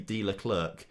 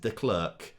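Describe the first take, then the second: First: The surname is said with two syllables, like Leclerc. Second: The surname is said with one syllable, like Klerk. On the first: The speaker calls it wrong. "It's not that" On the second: The speaker calls it right. "it's just De Klerk"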